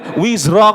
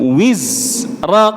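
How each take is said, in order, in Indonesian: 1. Bunyi z langsung menyambung ke r. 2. Bunyi z selesai dulu sebelum r. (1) "enggak boleh" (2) "Habiskan dulu suara zainya, baru pindah ke ra"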